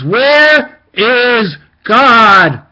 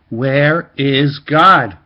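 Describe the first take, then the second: First: It is screamed at full volume. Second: It is said more loudly.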